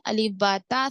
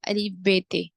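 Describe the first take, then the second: First: The letters are named ba and ta, Arabic style. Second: The letters are named be and te, Urdu style. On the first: The speaker calls it right. "लेकिन अरबी क्या है?" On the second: The speaker calls it wrong. "हम क्या पढ़ते थे?"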